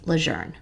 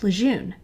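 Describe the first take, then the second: First: The name is said with an R sound. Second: The name is said without any R sound. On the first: This is how the namesake's family says it. "pronounced as if it has an R in it" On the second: This is the common local way of saying it. "have always pronounced it Camp Lejeune"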